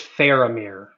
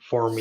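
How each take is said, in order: First: The name is said with three full syllables. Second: The name is squeezed into two syllables. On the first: The speaker calls it right. "the correct pronunciation" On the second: The speaker calls it wrong. "You said like Formir"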